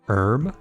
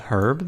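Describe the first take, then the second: First: The word starts with a vowel, no h. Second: The word starts with an audible h sound. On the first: "because it's it's a vowel sound" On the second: "Pronounce it with herb"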